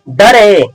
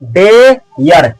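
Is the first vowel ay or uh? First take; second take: uh; ay. First: The first vowel is a short uh. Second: The first vowel is a long ay. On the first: The speaker calls it wrong. "बिल्कुल गलत" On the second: The speaker calls it right. "ये है मेरा दोस्त डेयर"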